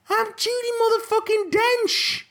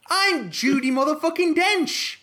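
First: Much higher, louder, over-the-top defiance; a diva shouting her own name at the director; louder diva boast. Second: Higher, slow, self-important boast, lightly voiced; a pompous star lightly putting the director in his place; mock diva Judi Dench. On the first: Pretend. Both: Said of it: "If I was Judi Dench".

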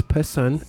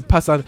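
First: Passon said the English way, PASS-on with a light second syllable; corrected Passon. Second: Passon said the French way, open a's, weight on the end; French-style Passon. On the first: Host corrects his guest's name to plain English. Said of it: "but anyway, it's Passon". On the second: Host misreads his guest's name the French way. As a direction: Passon with a slip into French vowels. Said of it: "it was my French accent came in". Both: Real, not acted.

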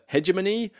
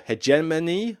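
First: Hegemony stressed on the first syllable, HEJ; HEJ-uh-muh-nee. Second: Hegemony stressed on the second syllable, JEM; heh-JEM-uh-nee. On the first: Unsure of the game's name, hegemony as HEJ-uh-muh-nee. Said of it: "I don't know if it's". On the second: Offering another pronunciation, hegemony as heh-JEM-uh-nee. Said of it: "if that's the pronunciation". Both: Shown as a demonstration.

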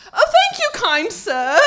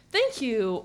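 First: Put-on high, loud, posh-sounding English accent. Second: Said in the usual way. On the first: Thanking a gentleman at the Chipotle door in a full English accent. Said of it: "went full English accent". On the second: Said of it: "instead of saying".

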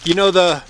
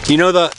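Both takes have the same delivery.

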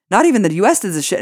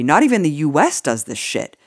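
First: Higher, fast, indignant emphasis; incredulous and worked up, rushing the words; heated repeat. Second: Said in the usual way. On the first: Real, not acted. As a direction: hammer it home quickly in rising outrage. Repeats the line for outraged emphasis.

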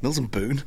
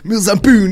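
First: Said in the usual way. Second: Mills and Boon called out loud and high, falling at the end; delighted exclaim. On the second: Shown as a demonstration. Friend seizing on the book name with a loud, gleeful shout.

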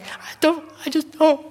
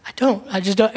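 First: High, pitiful mock-weepy whimper; mock crying. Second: Said in the usual way. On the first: Crying on a street corner to a stranger, mock whimper. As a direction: whine it like a helpless crying man. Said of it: "can you imagine me standing there just crying". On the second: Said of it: "can you imagine me standing there".

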